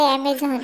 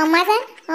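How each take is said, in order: First: Amazon said the English way, not as अम्माजान; correct Amazon. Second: अम्माजान said as amma-jaan, like a lady's name; old granny saying अम्माजान for Amazon; mispronounced Amazon. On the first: Grandson correcting granny's word, plain Amazon. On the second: Granny to grandson, mangling अम्माजान. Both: Acted. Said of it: "ते अम्माजान नसतंय, Amazon असते".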